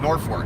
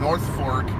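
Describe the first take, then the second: First: It is said as one contracted word. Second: It is said as two full, separate words. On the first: "I say I live in Norfolk" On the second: "I don't say I live in North Fork"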